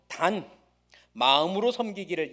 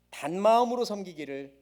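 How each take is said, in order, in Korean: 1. "단"과 "마음" 사이에 끊어짐이 있습니다. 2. "단"과 "마음"은 끊김 없이 이어집니다. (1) "이렇게 단과 마음을 끊어서 읽는 경우도 있죠" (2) "원래 의미가 그게 아니라 단 마음입니다"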